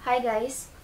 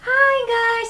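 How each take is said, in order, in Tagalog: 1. Pilit na boses, hindi gaanong matinis. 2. Natural, mataas at matinis ang boses niya sa vlog. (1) "Di ba parang ang peke naman noon eh" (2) "ganun lang naman talaga yung boses ko"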